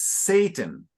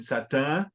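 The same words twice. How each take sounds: First: The word has an English pronunciation. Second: The word has a Portuguese-like pronunciation. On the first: The speaker calls it right. "in English it's Satan" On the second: The speaker calls it wrong. "rather than Satan"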